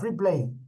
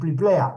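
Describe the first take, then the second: First: It begins with an fr sound, English-like. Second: It begins with a pl sound, Spanish-like. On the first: "la expresión free play" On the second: "desfigurado ... decíamos al pliplea"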